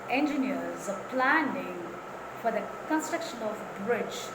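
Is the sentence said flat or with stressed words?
stressed. Key words in the sentence are clearly stressed. The speaker calls it right. "Instead say"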